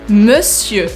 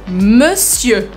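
No difference in how they are said.

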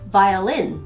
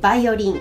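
First: It is said with English pronunciation. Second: It is said with Japanese loanword pronunciation. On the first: "英語でも。" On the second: "ではまずは、バイオリンからいきますね。"

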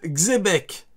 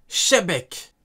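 First: The name begins with a ks sound. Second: The name begins with a sh sound. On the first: "Petit A" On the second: "Petit 2"

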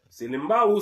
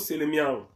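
First: The middle has an 'mb' sound: Selembao. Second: The middle has an 'mi' sound: Selemiao. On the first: This is the local form of the name. The speaker calls it wrong. "mauvaise prononciation" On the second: This is the original Hebrew form of the name. The speaker calls it right. "na hébreu"

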